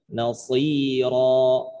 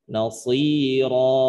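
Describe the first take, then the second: Both takes have the same delivery.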